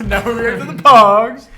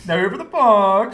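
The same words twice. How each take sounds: First: Laughing. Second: Said in the usual way. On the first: Shown as a demonstration.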